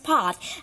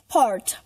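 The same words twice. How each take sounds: First: It is said without a sounded r. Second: It is said with a strong curled r. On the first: "In British it will pronounce part" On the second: "But in American, it pronounce part"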